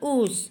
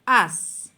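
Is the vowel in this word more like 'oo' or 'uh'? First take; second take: oo; uh. First: The vowel sounds like 'oo', as spelled. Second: The vowel sounds like 'uh', as in 'as'. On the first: The speaker calls it wrong. "itu bukan us" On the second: The speaker calls it right. "itu dibaca as"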